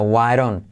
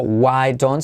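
First: WHY DON'T run together as "why-ron"; reduced native form. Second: WHY DON'T with a clear hard D; unreduced form. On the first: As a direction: soften the D of DON'T to a flapped R. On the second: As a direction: say "why don't" as two separate careful words. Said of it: "no digo". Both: Shown as a demonstration.

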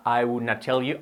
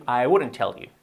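First: "would not" as two separate words, t sounded; uncontracted form. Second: "wouldn't" run together like "wooden"; contracted form. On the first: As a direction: say "would not" in full, unlinked. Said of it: "Nadie diría". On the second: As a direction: link "wouldn't" into one smooth word. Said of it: "las contracciones en inglés tenemos que hacerla". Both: Shown as a demonstration.

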